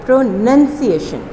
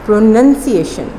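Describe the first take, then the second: The two takes are said the same way.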